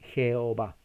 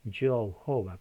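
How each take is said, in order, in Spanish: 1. El nombre se pronuncia con pronunciación española. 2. El nombre se pronuncia con pronunciación inglesa. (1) "en español es la J ... La H es muda y se lee Jehová" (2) "En inglés es Jehová, porque la E se pronuncia casi como una O"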